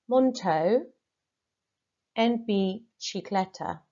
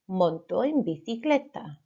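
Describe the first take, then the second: First: Two words are pronounced with altered sounds. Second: The words are pronounced in standard Spanish. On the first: The speaker calls it wrong. "So monto en bicicleta, I mispronounced" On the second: The speaker calls it right. "The first time I say it, it's going to be absolutely correct"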